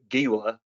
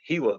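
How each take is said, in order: First: The word is said the Eastern Kentucky way. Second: The word is said the standard way. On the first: The speaker calls it wrong. "if you're from Eastern Kentucky like me, you wanted to pronounce it Gila" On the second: The speaker calls it right. "pronounced Gila though"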